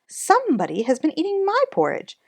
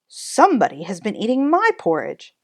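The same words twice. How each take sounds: First: It is said in a medium-pitched voice. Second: It is said in a deep, gruff voice. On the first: "in her middle voice" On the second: "in his magna rough gruff voice"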